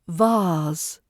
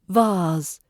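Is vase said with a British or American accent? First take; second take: British; British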